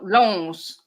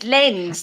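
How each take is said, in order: First: The vowel sounds like 'on'. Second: The vowel sounds like 'en'. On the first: The speaker calls it wrong. "not Lons" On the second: The speaker calls it right. "he said it's Lens"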